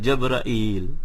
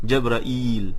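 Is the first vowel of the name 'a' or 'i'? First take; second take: a; a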